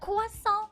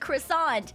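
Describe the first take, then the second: First: It is said with a French pronunciation. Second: It is said with an English pronunciation. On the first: It sounds pretentious. "you pretentious bitch" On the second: It sounds uncultured. "you uncultured swine"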